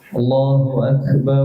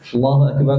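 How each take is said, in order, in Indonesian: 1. Diucapkan dengan lambat, dengan nada panjang. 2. Diucapkan dengan cepat, tanpa nada panjang. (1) "Kelamaan. Tidak disunahkan begitu" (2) "Disunahkannya cepat"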